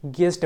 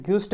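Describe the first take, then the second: First: गेस्ट with a plain "ge" start; correct silent u. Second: ग्यूस्ट with a "gyu" vowel; wrong u sounded. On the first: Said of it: "गेस्ट पढ़ते हैं". (गेस्ट में यू silent) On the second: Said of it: "ग्यूस्ट नहीं पढ़ते हैं". (ग्यूस्ट में गलत "यू" की आवाज़) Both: Shown as a demonstration.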